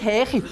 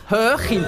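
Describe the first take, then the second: First: "Hechi" with a flat unrounded e in place of ö; "Hechi", unrounded first vowel; wrong vowel. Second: "Höchi" with a rounded ö; "Höchi", clearly rounded first vowel; correct rounded vowel. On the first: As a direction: show the mistake, "Hechi" with an e sound. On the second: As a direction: model "Höchi", lips rounded for the ö, not an e. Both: Shown as a demonstration. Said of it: "ja, nicht Hechi".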